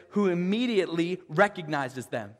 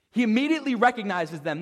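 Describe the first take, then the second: First: Said in the usual way. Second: Quicker, with immediately leaned on hard; emphatic retelling with "immediately" stressed. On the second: Shown as a demonstration.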